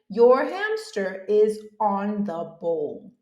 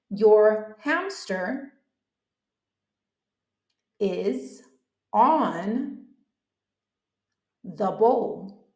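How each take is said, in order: First: The sentence is said at normal speed. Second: The sentence is said slowly. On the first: "just listen" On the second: "I can say it slowly"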